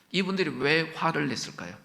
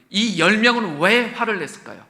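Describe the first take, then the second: First: Said in the usual way. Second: Louder, pressing hard on 왜; emphatic loud question. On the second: Shown as a demonstration. Preacher pressing the congregation on why they were angry. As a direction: demand the answer, leaning on 왜. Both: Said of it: "저 좀 봐주세요".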